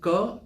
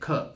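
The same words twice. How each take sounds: First: The K is released weakly, without a burst. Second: The K is released with a strong burst. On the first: The speaker calls it wrong. "So instead of K" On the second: The speaker calls it right. "try to say K"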